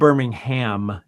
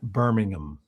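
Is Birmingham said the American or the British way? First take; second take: American; British. First: It is said the American way, as in Alabama. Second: It is said the British way, as in England. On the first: It means the city in Alabama. "I said Birmingham" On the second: It means the city in England. "not Birmingham"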